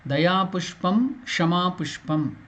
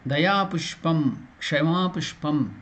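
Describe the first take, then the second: The two takes are said the same way.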